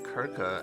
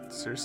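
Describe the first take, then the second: First: The name begins with a hard K sound. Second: The name begins with a soft S sound. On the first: This is how the game says the name. "they pronounce it Kirka" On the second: This is the pronunciation the speaker expected. "and not Circe"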